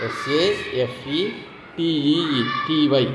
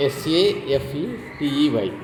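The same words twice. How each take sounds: First: Each letter stretched out slowly; very slow spelling. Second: Said in the usual way. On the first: Shown as a demonstration. Teacher spelling safety very slowly for students. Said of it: "teacher spells word very slowly". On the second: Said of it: "teacher spells word letter by letter".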